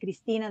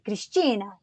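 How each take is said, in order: First: The name is said in her usual way. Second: The name is said the Brazilian Portuguese way.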